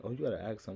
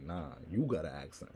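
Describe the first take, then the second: First: Imitated remark, pitched up with a rise; mock accusation. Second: Retold retort, leaning hard on "you"; stress on YOU. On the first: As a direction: play someone pointing out an accent. Quotes Southerners accusing him of accent. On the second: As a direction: throw it back with the weight on "you". His retort turning it back.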